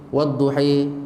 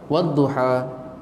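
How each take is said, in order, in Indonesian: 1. Vokal akhirnya condong sepenuhnya ke e. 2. Vokal akhirnya adalah a yang terbuka sepenuhnya. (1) "imalah, dari atas condong bengkok sampai bawah" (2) "Pertama disebut sebagai fatah ataupun fathah"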